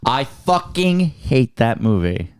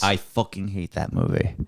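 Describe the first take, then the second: First: It is said at a louder volume. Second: It is said at a normal volume.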